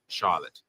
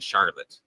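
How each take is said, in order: First: The R sound is soft or left out. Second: The R sound is clearly and strongly pronounced. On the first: The speaker calls it wrong. "not Charlotte" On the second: The speaker calls it right. "would have pronounced Charlotte with a hard R"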